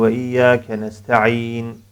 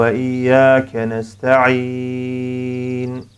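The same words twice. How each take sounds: First: The final vowel is held only briefly. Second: The final vowel is held moderately long. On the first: This is the fast reading style. "Bu şekilde 2 hareke miktarı okumuş oluyoruz" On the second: This is the medium-paced reading style. "şeklinde 4 hareke"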